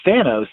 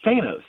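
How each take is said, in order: First: Thanos said THAN-os, short A; short-A pronunciation. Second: Thanos said THAY-nos, long A; long-A pronunciation. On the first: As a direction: make the first vowel of Thanos as in "than". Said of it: "people started saying Thanos". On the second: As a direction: stretch the first vowel of Thanos to "ay". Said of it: "I've always pronounced it Thanos". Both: Shown as a demonstration.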